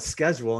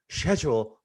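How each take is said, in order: First: The word is said with an American pronunciation. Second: The word is said with a British pronunciation. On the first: This is how Americans say it. "We call it schedule" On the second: This is how the British say it. "that's the way it's supposed to be said"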